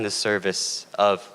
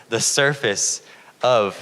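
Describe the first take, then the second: First: Said in the usual way. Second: SURFACE said slowly and firmly; corrected word stressed. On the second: Real, not acted. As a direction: lean on SURFACE to fix the slip. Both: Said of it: "not the surface".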